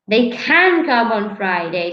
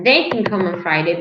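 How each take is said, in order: First: The stress is on the word can. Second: The stress is on the word they. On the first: It is about the possibility. "the stress is on the of the possibility" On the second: It is about a specific person. "So if I stress they"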